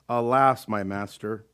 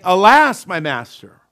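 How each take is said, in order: First: It is said flatly, without excitement. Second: It is said with excitement and panic.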